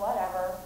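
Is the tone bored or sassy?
bored. It is said in a flat, bored tone. "sort of sound bored"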